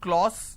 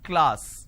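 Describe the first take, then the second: First: The vowel sounds like o. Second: The vowel sounds like a. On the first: The speaker calls it wrong. "they make it O" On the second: The speaker calls it right. "This is how it's pronounced"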